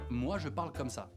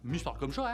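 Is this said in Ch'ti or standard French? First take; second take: standard; Ch'ti. First: It is spoken with a standard French pronunciation. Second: It is spoken with a northern Ch'ti pronunciation. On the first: "ça veut dire moi je parle comme ça" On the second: "Moi devient mi et ça devient chaud"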